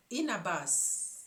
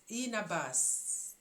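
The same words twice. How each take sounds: The two takes are said the same way.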